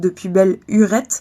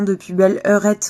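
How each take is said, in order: First: The word after belle starts with a u vowel. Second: The word after belle starts with an eu vowel. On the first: "dans certaines régions, ça se prononçait hurette" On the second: "Une heurette, en France, avant, c'était une petite heure"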